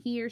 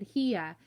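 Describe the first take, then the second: First: Said in the usual way. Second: "here" said Southern, as "hee-uh"; Southern pronunciation. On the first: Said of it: "Instead of saying". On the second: Shown as a demonstration. Mama talks Southern when worried, "here" as "hee-uh". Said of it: "she said".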